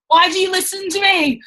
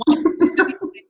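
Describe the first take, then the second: First: Much higher, mock despairing; exasperated cry. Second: Breathless whisper, half to herself; whispered exasperation. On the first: Telling the team about her niece, in high mock despair. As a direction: throw it up high in playful disbelief. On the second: Retold or imitated. Whispering in despair that her niece copies her. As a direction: mutter it in mock despair under your breath. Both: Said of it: "I'm like".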